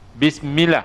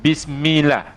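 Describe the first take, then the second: The two takes are said the same way.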